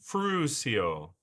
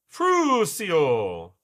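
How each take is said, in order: First: "Frusio" as FROO-see-oh, at usual volume; trial pronunciation. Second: "Frusio" loud, with a long stretched FROOO; emphatic trial pronunciation. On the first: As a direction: try out "Frusio" evenly, drawing out the first syllable. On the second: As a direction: belt out "Frusio" as FROOO-see-oh. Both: Shown as a demonstration. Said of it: "pronounce the frus like".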